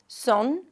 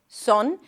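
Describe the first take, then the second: First: The vowel sounds rounded, like oh. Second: The same.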